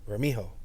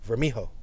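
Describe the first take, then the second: First: The J is sounded like an H, Spanish-style. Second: The same.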